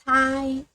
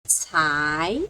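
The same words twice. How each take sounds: First: The pitch stays high and level. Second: The pitch rises from middle to high.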